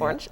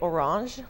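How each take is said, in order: First: The name is said as the plain everyday word. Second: The name is said in a fancier, elaborate way. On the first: The speaker calls it right. "but it's" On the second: The speaker calls it wrong. "people always say orange, which makes this sound so much fancier"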